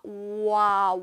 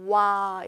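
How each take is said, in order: First: The two vowels are said slowly as separate sounds. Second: The two vowels are run together quickly into one. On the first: "오하고 에에서 오아" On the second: "와 이렇게 되고"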